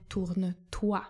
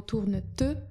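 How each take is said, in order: First: „toi” wymówione jako akcentowane „tua”, wolno i wyraźnie; „tourne toi” z pełnym, akcentowanym „toi” na końcu; poprawna forma. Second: „ty” wymówione jak polskie ty, z zaimkiem nieakcentowanym na końcu; „tourne ty” z zaimkiem „ty” urwanym na słabej sylabie; błędna forma. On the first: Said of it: "tylko mamy tourne toi". (nauczycielka wolno wzorcowo wymawia „tourne toi”) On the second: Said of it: "żeby nie było". (celowo błędne „tourne ty” zamiast „tourne toi”) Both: Shown as a demonstration.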